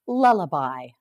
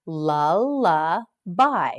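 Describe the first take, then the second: First: Said in the usual way. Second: "Lullaby" drawn out at half speed, each syllable clear; teacher slowing "Lullaby" right down; slow model word. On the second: Shown as a demonstration. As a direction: stretch "Lullaby" slowly for the class.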